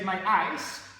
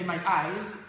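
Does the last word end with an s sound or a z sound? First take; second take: s sound; z sound. First: The word ends with a hissing s sound. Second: The word ends with a buzzing z sound. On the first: It sounds like frozen water. The speaker calls it wrong. "is the frozen frozen water, it's called ice" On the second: It means the body part. The speaker calls it right. "z, z, z, z, vibrating again"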